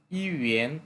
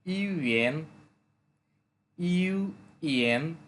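First: Said in the usual way. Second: "UN" slowly split into ইউ and এন, with a gap; syllable by syllable. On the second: Shown as a demonstration. Teacher breaking the new word down for learners, "UN" syllable by syllable. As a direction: break "UN" in two slow, drawn-out parts.

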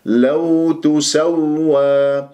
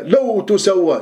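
First: لو تسوى very slow, pressing the doubled waw; stress on doubled waw. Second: لو تسوى lifted higher, as if overcome; overdone emotive reading. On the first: Teacher models for students, stressed waw in تسوى. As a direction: lean on and hold the waw in تسوى. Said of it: "الواو نبر". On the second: Teacher parodies an over-involved reciter, higher and emotive. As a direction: exaggerate feeling with raised pitch on لو تسوى. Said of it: "متفاعل مع الآية". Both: Shown as a demonstration.

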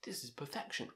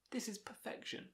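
First: Said in the usual way. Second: Awed whisper. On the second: Real, not acted. Album reviewer hushing his praise, whispered. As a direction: drop to a reverent whisper.

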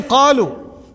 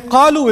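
First: Said in the usual way. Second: قَالُوا said higher and louder; stress on قَالُوا. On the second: Shown as a demonstration. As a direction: hit the word قَالُوا for the past tense. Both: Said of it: "is in the past tense".

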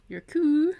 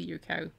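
First: "coo" said Scots-style, rhyming with "moo", high and loud. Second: Said in the usual way. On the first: Shown as a demonstration. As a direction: say "coo" as the Scots word for cow. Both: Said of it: "Your coo".

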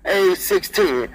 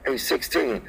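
First: Slow, drawn-out call; loud call. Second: Softly; quiet. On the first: Trucker on CB back to talking loud, slow. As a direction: drag it out like a big man on the mic. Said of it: "I talk loud 'cause I'm a fat man". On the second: Trucker on CB says he'll whisper, softly. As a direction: ease off and say it soft. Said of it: "And I'ma whisper". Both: Shown as a demonstration.

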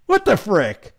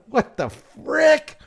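First: Said in the usual way. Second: Higher, slow, stretched-out what the frick; what the frick, pulled long and high; stunned disbelief. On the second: Real, not acted. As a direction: drag the words out in shocked disbelief. Stunned reaction to gun law.

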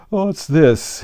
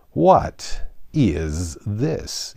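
First: Sleepy lion's booming question; deep, hollow tone. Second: Very slow, drawn-out disgusted question; deep disgust. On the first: The tired Lion blinks at Alice, deep and hollow. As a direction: toll it out like a great bell. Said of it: "speaking in a deep, hollow tone". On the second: The Unicorn first sees Alice, deeply disgusted. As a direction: drag each word out with distaste. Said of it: "of the deepest disgust". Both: A narrator's reading.

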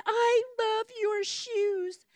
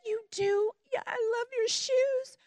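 First: Put-on slow, wistful little girl's voice; a sick child gazing at pretty shoes, slowly. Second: Put-on higher, gentle answer to a child; tender reply. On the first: Sick little girl admiring shoes. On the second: Jade answering the little girl.

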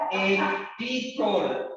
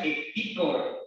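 First: Ecticor stretched out very slowly, pitched higher; drawn-out nickname. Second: Said in the usual way. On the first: Retold or imitated. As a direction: linger incredulously on each syllable of Ecticor. Repeats nickname in disbelief.

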